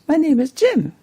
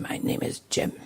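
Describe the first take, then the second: First: It is said in a bright, cheerful tone. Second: It is said in an angry tone. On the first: The speaker is in a happy mood. "or very cheerful" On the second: The speaker is hostile to the listener. "or very angry"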